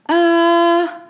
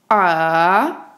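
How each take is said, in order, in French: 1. Le ton reste haut et stable. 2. Le ton descend bas, puis remonte. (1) "Stable, constant, haut" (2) "un ton descendant puis montant"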